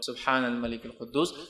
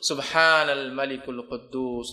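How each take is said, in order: First: The last word is said short. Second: The last word is drawn out long.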